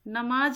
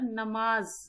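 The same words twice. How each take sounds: First: It ends with a j sound. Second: It ends with a z sound. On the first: The speaker calls it wrong. "नमाज ना रहकर" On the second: The speaker calls it right. "ज़ बोलेंगे इसको"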